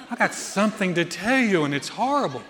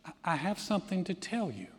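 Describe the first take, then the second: First: Hammed-up voice of dreadful news; mock-ominous mother, played for laughs. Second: Hushed, hesitant, ominous announcement; retold with quiet foreboding. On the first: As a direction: exaggerate the foreboding in a put-on voice. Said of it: "it had that sound like". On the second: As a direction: softly imitate a mother about to break grave news. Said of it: "It sounded ominous".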